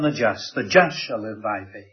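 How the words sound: The word just is stressed. The focus is on who is righteous. "he puts his emphasis on the just"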